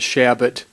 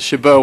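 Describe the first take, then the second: First: The name is said with an English pronunciation. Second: The name is said with a French pronunciation. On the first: This is how the family says the name. "We pronounce it Shabbat" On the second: This is the original foreign way of saying it. "which is the French pronunciation"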